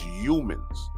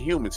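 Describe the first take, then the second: First: The word is said mimicking another man's pronunciation. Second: The word is said in an ordinary pronunciation. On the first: This is how the man being mocked says it. "he says humans" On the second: This is the usual way to say it. "He don't say humans"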